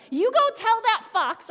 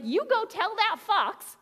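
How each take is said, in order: First: Sassy and louder, leaning on go; a little sass. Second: Said in the usual way. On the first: Retold or imitated. Jesus sending word back to Herod, sassy. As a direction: toss it off with cheeky sass. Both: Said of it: "I imagine a little bit of sass".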